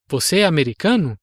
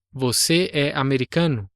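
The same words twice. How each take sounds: First: "Você é americano" asked as a question, the pitch rising on "americano"; "Você é americano", quick, with "americano" lifting up at the end; "Você é americano" with a questioning rise on the last word; question intonation. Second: "Você é americano" said as a plain statement, falling at the end; "Você é americano", flat and level, falling on "americano" like a fact; "Você é americano" with the pitch dropping on the last word; statement intonation. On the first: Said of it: "a minha entonação sobe no fim da frase". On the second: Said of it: "que seria uma frase afirmativa".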